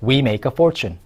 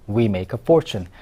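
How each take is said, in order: First: Said in the usual way. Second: Slow, careful second take; slow repetition. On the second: Shown as a demonstration. Teacher repeats slowly for learners to copy. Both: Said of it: "어떻게 해요?".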